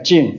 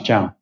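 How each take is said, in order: First: The name is said with an English 'jeen' sound. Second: The name is said with a French 'zhahn' sound. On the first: The speaker calls it wrong. "The English case say like a Jin" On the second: The speaker calls it right. "but actually pronounced as Zhang"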